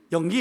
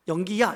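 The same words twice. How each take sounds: First: "영기" as a bare, cut-off Busan call; Busan dialect. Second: Said in the usual way. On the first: Shown as a demonstration. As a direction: call "영기" Busan-style, stopping short without "야". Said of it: "이렇게 불러야 된대". ("영기", 부산 사투리로 딱 잘라 부르듯) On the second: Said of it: "이렇게 부르죠".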